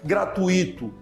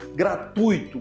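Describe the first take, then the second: First: The 'i' is stressed as its own syllable. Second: The 'ui' is one syllable, stressed on u. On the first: The speaker calls it wrong. "nunca gratuito / com ênfase no i, como se fosse um hiato" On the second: The speaker calls it right. "Fala a segunda sílaba junto"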